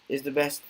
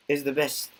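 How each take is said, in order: Both takes have the same delivery.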